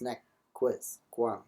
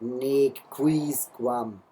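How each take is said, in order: First: The vowels are kept short. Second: The vowels are drawn out long. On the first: The speaker calls it right. "Obviously, these are short vowels" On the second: The speaker calls it wrong. "this is not"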